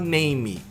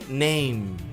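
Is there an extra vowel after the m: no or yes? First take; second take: yes; no. First: An extra vowel is added after the m. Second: The word ends on the m sound. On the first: The speaker calls it wrong. "A gente não fala name, né? Que é, uma, é um costume brasileiro" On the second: The speaker calls it right. "morre no M"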